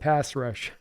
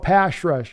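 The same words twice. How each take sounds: First: The word 'pass' ends with an s sound. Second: The word 'pass' ends with an sh sound. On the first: The speaker calls it right. "instead of" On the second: The speaker calls it wrong.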